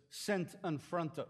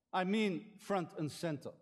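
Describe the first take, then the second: First: "sent and fronter" with the first sounds of front and center swapped; spoonerism. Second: Said in the usual way. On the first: Shown as a demonstration. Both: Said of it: "That's called a Spoonerism".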